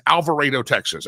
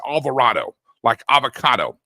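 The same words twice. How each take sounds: First: Alvarado with the "AY" sound, Al-va-RAY-do; right Alvarado. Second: Alvarado said with an avocado "ah", lower; mock the "Alvar-AH-do" they keep saying; wrong Alvarado. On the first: Texan host correcting listeners, Alvarado with "RAY". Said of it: "you would absolutely be incorrect". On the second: Host mocking how others say Alvarado, with the "ah" sound. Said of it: "I keep hearing people say". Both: Shown as a demonstration.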